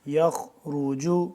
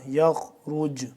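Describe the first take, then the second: First: The word ends with a short vowel. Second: The word ends on a bare consonant.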